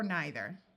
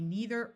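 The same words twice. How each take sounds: First: The first vowel sounds like 'eye'. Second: The first vowel sounds like 'ee'. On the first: "The same with this word" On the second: "The same with this word"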